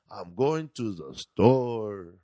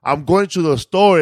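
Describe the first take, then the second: First: Very slow Mexican accent, every word dropping down. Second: Said in the usual way. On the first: Shown as a demonstration. Showing the accent taught at an audition, slow dropping Mexican accent. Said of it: "you gotta bring your voice down". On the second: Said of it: "instead of saying".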